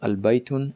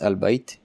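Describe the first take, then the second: First: The word ends with its full case ending. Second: The word stops on its final consonant.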